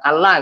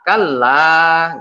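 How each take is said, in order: First: The final vowel is cut short. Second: The final vowel is held long. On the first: The speaker calls it wrong. "Jangan dibaca kalla gitu aja lah. Harus ada dua harokat itu" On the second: The speaker calls it right. "la-nya ini ada satu alif. Jadi dibacanya kalla"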